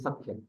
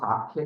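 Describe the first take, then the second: First: The vowel is kept short. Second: The vowel is drawn out long. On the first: The speaker calls it right. "It is short" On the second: The speaker calls it wrong. "it is not Sakhya"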